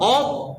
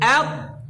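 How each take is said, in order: First: The opening vowel is dark and thick. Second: The opening vowel is light and thin. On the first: The speaker calls it wrong. "ভুল কারণ হামজা মোটা হয়েছে" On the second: The speaker calls it right. "হামজা মোটা হবে না"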